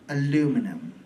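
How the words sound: It is said the American way, with four syllables. The speaker calls it wrong. "You people say aluminum. That is wrong"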